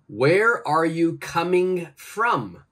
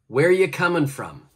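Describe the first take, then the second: First: Every word is said in full, including are. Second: The word are is dropped in relaxed speech. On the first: "Please change it" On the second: "my pronunciation is"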